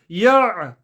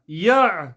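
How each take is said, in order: Both takes have the same delivery.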